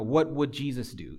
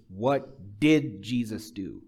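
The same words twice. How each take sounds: First: Said in the usual way. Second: Slow question with "did" drawn out and punched; deliberate, spaced words, heavy weight on "did"; stress on did. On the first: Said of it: "So it's not, you know". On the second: Shown as a demonstration. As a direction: lean hard and long on "did". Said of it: "It's, What did Jesus do?".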